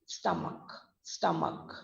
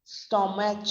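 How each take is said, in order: First: "stomach" said softly as STUM-uk; short u and final k in "stomach"; hard K ending. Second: "Stomach" said wrongly as STO-match; a "ch" sound closing "Stomach"; wrong CH ending. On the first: Teacher repeating the correct stomach, softly, as STUM-uk. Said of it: "हम बोलते हैं उसको". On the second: Teacher showing what we don't say, STO-match. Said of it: "नहीं बोलते हैं". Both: Shown as a demonstration.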